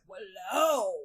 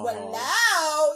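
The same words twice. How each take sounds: First: It is said in a death metal style. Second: It is said in a glam rock style.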